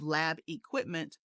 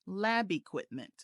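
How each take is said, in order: First: The two words are said separately. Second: The b sound links smoothly into the next word. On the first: The speaker calls it wrong. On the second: The speaker calls it right.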